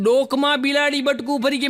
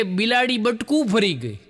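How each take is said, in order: First: Higher, disbelieving question rising at the end; incredulous repeat. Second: Said in the usual way. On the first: Retold or imitated. Repeating the man's excuse back to him in disbelief. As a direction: echo it back in mock disbelief. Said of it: "આ પહેલી વાર સાંભળ્યું". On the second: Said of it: "અરે, મને કે".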